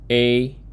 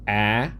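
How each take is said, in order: First: It is said as the long letter name. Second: It is said as a short vowel sound.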